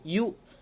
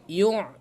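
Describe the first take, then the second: First: It has a silent glottal stop. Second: It has a voiced throaty ain sound. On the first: The speaker calls it right. "pastikan hamzah mati" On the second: The speaker calls it wrong. "jangan ain mati"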